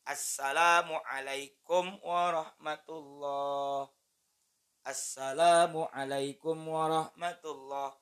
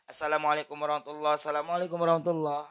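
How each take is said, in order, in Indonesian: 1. Jeda yang jelas memisahkan kedua salam. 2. Kedua salam itu menyambung tanpa jeda.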